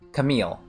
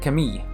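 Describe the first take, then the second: First: The name ends with a clear L sound. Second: The name ends with a Y-like sound. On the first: This is how English speakers say it. "With a L sound at the end" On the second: This is how French speakers say it. "They don't say L. It's like a Y sort of sound"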